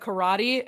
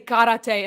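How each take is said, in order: First: The word is said with English pronunciation. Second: The word is said with Japanese pronunciation. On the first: The speaker calls it wrong. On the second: The speaker calls it right.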